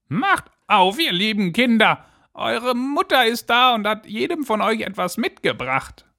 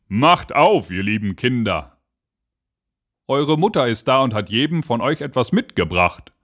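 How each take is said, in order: First: Wolf faking a dainty, very high voice; fine disguised voice. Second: Wolf calling at the door, undisguised; lightly voiced wolf, well below the goats' squeak; rough-voiced wolf. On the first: Wolf poses as mother at the door, high fine voice. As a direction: pitch it high like a false mother goat. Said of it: "machte damit seine Stimme fein". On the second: Wolf knocks and calls to the kids, rough-voiced wolf. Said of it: "an der rauen Stimme". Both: A narrator's reading.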